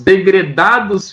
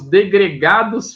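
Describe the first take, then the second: First: The third syllable begins with a d sound. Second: The third syllable begins with a g sound. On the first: The speaker calls it right. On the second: The speaker calls it wrong.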